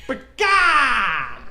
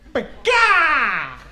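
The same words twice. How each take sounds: First: Bird screech. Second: High, loud mock bird cry; bird screech. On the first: Pretend. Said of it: "sounded feminine, but it's scary that way". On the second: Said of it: "I don't know why that sounded feminine".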